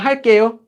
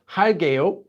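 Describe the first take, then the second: First: The second syllable starts with a tense consonant. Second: The second syllable starts with a plain consonant. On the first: The speaker calls it right. "Same thing" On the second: The speaker calls it wrong. "Not 할게요. 할게요 would sound really weird"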